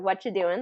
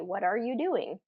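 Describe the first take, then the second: First: The words run together and one word drops out. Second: Every word is said fully and separately. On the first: The speaker calls it right. "That's a pretty common way of saying it" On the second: The speaker calls it wrong. "more natural than what are you doing?"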